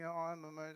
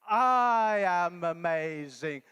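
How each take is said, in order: First: It is said quietly and half-heartedly. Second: It is said loudly and with energy.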